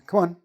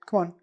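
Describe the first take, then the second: First: The words are joined, stress on the second. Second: The same.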